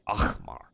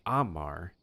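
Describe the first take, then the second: First: It has a throaty, caught sound in the middle. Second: It is said without a throaty sound. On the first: "Something caught in your throat sound" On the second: "instead of saying Amar"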